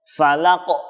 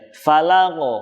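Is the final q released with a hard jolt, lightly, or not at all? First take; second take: hard jolt; lightly. First: The final q is released with a hard jolt. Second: The final q is released with a light bounce. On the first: The speaker calls it wrong. "jadi langsung ditekan di ujungnya" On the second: The speaker calls it right. "cukup dipantulkan saja"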